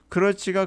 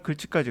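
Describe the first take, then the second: First: It is said in full with three syllables. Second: It is shortened to two syllables with L. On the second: "글치까지 가요"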